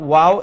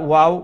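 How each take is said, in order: Both takes have the same delivery.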